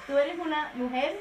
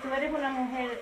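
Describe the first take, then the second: First: The phrase is spoken more slowly and deliberately. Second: The phrase is spoken at a normal, quicker pace.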